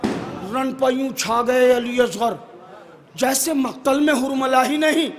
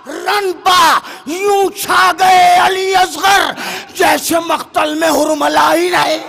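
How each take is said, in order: First: It is recited softly with a calm, gentle voice. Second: It is recited loudly with a booming, forceful voice. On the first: "बिल्कुल आराम से पढ़ूंगा।" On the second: "अब ये शेर मैंने अपने लहजे की घनगरज से सुनाया।"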